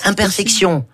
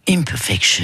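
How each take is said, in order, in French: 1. Le mot est prononcé avec des sons français. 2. Le mot est prononcé avec des sons anglais. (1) "D'abord la française" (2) "Et en anglais, ça donne"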